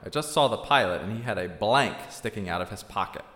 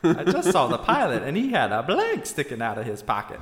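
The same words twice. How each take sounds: First: It is said in a plain man's voice. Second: It is said in a Southern Belle voice.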